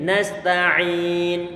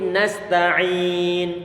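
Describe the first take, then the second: The two takes are said the same way.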